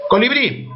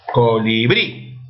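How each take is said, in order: First: Said in the usual way. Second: "Colibrí" drawn out by syllables, rising onto "brí"; acento en BRÍ. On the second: Shown as a demonstration. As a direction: slowly sound out "Colibrí", landing on the stressed "brí". ("Colibrí" lento, por sílabas, con fuerza en "brí") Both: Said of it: "¿Dónde está la mayor fuerza de voz?".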